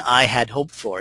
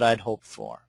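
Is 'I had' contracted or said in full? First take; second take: full; contracted. First: I had is said as two full words. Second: I had is contracted to one syllable. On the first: It sounds almost formal. The speaker calls it wrong. "You wouldn't say, ... It sounds almost formal" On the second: It sounds like normal conversation. The speaker calls it right. "I did the contraction there"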